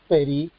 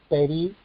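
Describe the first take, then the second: The two takes are said the same way.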